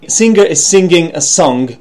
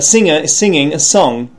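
First: The ng sounds end with a hard g. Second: The ng sounds are nasal, with no g. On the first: The speaker calls it wrong. "And they say singer" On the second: The speaker calls it right. "it should be"

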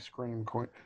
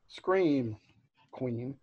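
First: The two words run together without a pause. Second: There is a pause between the two words.

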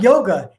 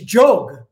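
First: The word begins with a Y sound. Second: The word begins with a J sound. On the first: The speaker calls it wrong. "it's not yoga" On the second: The speaker calls it right. "when the Y starts the beginning of the word, it has a J sound"

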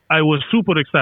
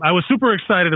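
First: It is spoken in a put-on Russian accent. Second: It is spoken in the speaker's normal accent. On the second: "I'm not going to do this the whole time"

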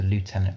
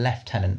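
First: The word is pronounced the American way. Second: The word is pronounced the British way. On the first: "which is the American pronunciation" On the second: "which is the UK British way"

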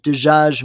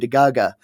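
First: It is said with formal Arabic pronunciation. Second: It is said with Omani dialect pronunciation.

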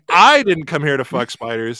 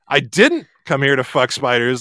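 First: The word I carries the main stress. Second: The word didn't carries the main stress. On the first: Someone else is here only for that. "I'm accusing someone else of being present solely to fuck spiders" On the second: The speaker resents being assumed to be here only for that. "you seem sure I am here solely here to fuck spiders, and I resent the implication"

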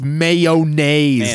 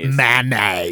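First: A clear y sound follows the first syllable. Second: No y sound follows the first syllable. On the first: The speaker calls it right. "There's a Y in it's, there. It's mayonnaise" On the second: The speaker calls it wrong. "not mayonnaise"

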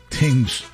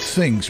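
First: The word begins with a plain T sound. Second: The word begins with a TH sound. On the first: This is the local New Jersey way of saying it. "We don't say things in New Jersey. We say tings" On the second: This is the way people outside New Jersey say it. "It's not things"

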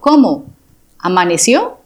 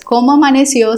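First: It is asked with exaggerated, astonished surprise. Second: It is asked as a plain, neutral question. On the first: Jokes that the person survived the night. "como en admiración" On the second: Asks how the person slept and feels. "No es cómo amaneció"

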